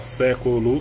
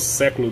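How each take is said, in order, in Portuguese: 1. A palavra é pronunciada com três sílabas. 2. A palavra é pronunciada com duas sílabas. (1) "três sílabas" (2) "duas sílabas"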